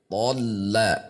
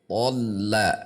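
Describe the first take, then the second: No difference in how they are said.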